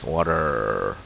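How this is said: The R sound at the end is strongly pronounced. "Americans like R is very like very very heavily emphasized"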